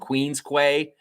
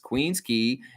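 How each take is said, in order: First: The last word sounds like 'kway'. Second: The last word sounds like 'key'. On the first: The speaker is not from the city. The speaker calls it wrong. "anybody who's walking around saying Queen's Quay, you're an idiot" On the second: The speaker is a real local. The speaker calls it right. "that's how you say it. It's said key"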